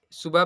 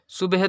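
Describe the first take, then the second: First: "सुबह" as su-ba, open ending; correct pronunciation. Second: "सुबह" as sub-he, with audible h; wrong pronunciation. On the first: Teacher gives learners the proper reading, "सुबह" as su-ba. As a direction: let the h drop away at the end of "सुबह". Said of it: "सुबह पढ़ेंगे". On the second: Teacher warns against a misreading, "सुबह" as sub-he. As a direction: end "सुबह" on a sounded he. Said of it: "तो कभी नहीं पढ़ेंगे". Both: Shown as a demonstration.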